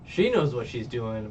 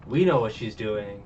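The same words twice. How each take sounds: First: "She" lifted for contrast; stress on SHE. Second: "we" lifted for contrast; stress on WE. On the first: Explaining she is in on it, stress on "She". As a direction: lean on the word "She". Contrasting her knowledge with Sanji's. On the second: Explaining who is in on it, stress on "we". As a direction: lean on the word "we". Contrasting audience's knowledge with Sanji's. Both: Real, not acted.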